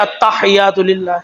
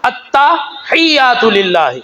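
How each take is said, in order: First: التحیات للہ slurred, the tta softened and rushed; mispronounced recitation. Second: التحیات للہ drawn out slowly with doubled t; correct Arabic recitation. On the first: Showing the crowd their common mistake, mock sloppy. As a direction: mimic the careless التحیات للہ of ordinary people. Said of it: "اور ہم پڑھ رہے ہوتے ہیں". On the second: Teaching the congregation the right Arabic, slow and precise. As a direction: spell out التحیات للہ slowly, stressing the tta. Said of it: "تا کے اوپر زبر ہے". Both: Shown as a demonstration.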